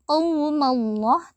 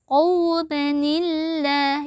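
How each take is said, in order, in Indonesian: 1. Kedua kata menyambung langsung tanpa bunyi 'ni' yang disisipkan. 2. Bunyi 'ni' disisipkan untuk menyambung kedua kata. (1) "tidak dibaca" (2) "tetapi dibaca"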